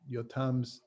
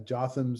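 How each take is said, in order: First: The name begins with a Y sound. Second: The name begins with a J sound. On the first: This is the Hebrew form of the name. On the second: This is the English form of the name.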